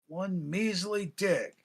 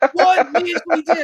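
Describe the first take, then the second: First: The phrase is said at ordinary talking volume. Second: The phrase is yelled out loudly.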